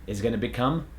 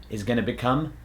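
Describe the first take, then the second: Both takes have the same delivery.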